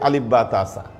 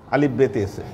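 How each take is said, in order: First: The letters are said with Arabic vowels and sounds. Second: The letters are said with Persian vowels and sounds. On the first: "আরবিতে" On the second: "ফার্সিতে"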